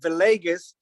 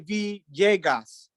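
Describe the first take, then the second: First: The double L is said as an L sound. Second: The double L is said as a J sound. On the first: "the American Standard version" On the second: "the L's are like J's"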